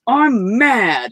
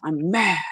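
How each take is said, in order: First: Put-on angry child. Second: Put-on a small child's pouty I'm mad; mild mock pout from a little girl. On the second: Shown as a demonstration. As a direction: say I'm mad like a sulking five-year-old. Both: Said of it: "I said it just like this".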